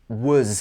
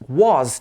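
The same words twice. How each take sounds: First: The vowel in the word is reduced. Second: The vowel in the word is full. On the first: "changes to was here" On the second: "Was changes to"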